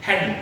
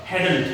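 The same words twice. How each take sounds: First: "hadn't" cut to hadn, no t; contracted hadn't. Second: "hadn't" as ha-dant with t sounded; common wrong hadn't. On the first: Teacher giving the simple form, reduced hadn't. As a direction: end "hadn't" on the n. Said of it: "this is simply". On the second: Teacher mimicking what learners have heard, full hadn't. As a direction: give "hadn't" a full second syllable and t. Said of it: "लेकिन hadn't नहीं होता". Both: Shown as a demonstration.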